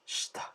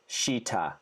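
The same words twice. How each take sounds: First: The i after sh is barely heard. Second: The i after sh is fully pronounced. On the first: The speaker calls it right. "Almost like the I is barely there" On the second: The speaker calls it wrong. "Notice how it's not shita"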